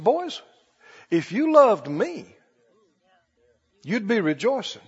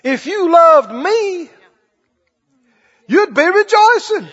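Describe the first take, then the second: First: Soft, slow tender reply; gentle Jesus. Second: Higher, slow, pressed-out "If you loved me, you'd be rejoicing"; emphatic repeat. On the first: Retold or imitated. Jesus gently correcting his upset disciples, soft and slow. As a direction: say it kindly, slowly, like a patient teacher. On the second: Shown as a demonstration. Preacher driving the point home to the congregation, slow and high.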